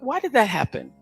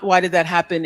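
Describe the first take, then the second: First: It is asked in a curious, open tone. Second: It is asked in an accusing tone.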